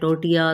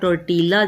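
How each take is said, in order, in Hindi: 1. यह शब्द l ध्वनि के बिना बोला जाता है। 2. यह शब्द l ध्वनि के साथ बोला जाता है। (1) "लेकिन बोला जाता है टोटिया" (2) "लिखा टोर्टीला जाता है"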